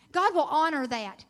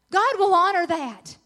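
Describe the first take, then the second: First: Said in the usual way. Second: God will honor that, louder with more weight; louder, with conviction; emphatic repeat. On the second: Real, not acted. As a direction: lean into it the second time. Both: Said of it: "repeated with emphasis".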